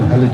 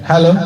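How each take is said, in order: First: The voice sounds thick and full. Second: The voice sounds thin and light. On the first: "এই মোটা আওয়াজ হবে" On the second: "পাতলা আওয়াজ করে দিলাম"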